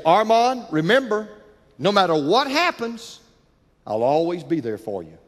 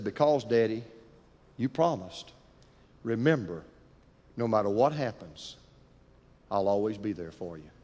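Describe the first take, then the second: First: Put-on a dad at the school gate reassuring his boy; father's promise. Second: Put-on child's soft answer. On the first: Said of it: "and he'd say". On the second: Son softly reminding his father of the promise. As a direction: lower and softer, a tender hush. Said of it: "looked at his dad and said".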